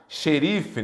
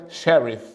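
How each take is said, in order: First: Said in the usual way. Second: "sheriff" said the English way, stress on the first syllable; English pronunciation. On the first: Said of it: "Que vem da palavra inglesa". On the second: Shown as a demonstration. Teacher citing the source word, English pronunciation. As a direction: switch to English for "sheriff", no final vowel. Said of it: "palavra inglesa sheriff".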